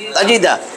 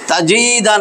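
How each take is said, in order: First: The vowels are said short and quick. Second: The vowels are drawn out and lengthened. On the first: The speaker calls it right. "হরকতের উচ্চারণ তাড়াতাড়ি করতে হয়।" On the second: The speaker calls it wrong. "তাজিদা না"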